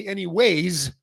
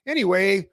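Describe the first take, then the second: First: "Anyways" with an added s sound at the end; "Anyways" ending in a clear z sound; saying anyways. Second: "Anyway" said without a final s, ending on the "way"; "Anyway" with no s sound at the end; saying anyway. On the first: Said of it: "Or I say". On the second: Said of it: "I use this and I say". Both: Shown as a demonstration.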